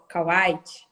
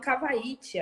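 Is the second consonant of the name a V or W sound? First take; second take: W sound; V sound. First: The second consonant is a W sound. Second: The second consonant is a V sound. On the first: The speaker calls it right. "é Kawaiti" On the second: The speaker calls it wrong. "porque o W tinha som de V"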